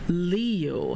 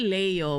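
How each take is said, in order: First: The name is said with an American pronunciation. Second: The name is said with a Filipino pronunciation. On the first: This is how the name is said in America. "dyan sa America ... ikaw si Leo" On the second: This is how the name is said in the Philippines. "hindi ka na si Leo"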